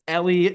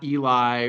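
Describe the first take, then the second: First: The name ends with an 'ee' sound. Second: The name ends with an 'eye' sound. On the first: The speaker calls it right. "it's Ellie" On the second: The speaker calls it wrong. "not Eli"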